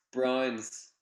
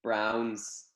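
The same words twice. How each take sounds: First: Browns said with her Northern Irish vowel, like "Brines". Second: "Browns" in an American accent, open "ow" vowel; Browns, put-on American accent. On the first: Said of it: "that's just my accent". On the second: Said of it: "I'll say it in an American accent". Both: Shown as a demonstration.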